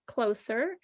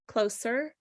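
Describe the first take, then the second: No difference in how they are said.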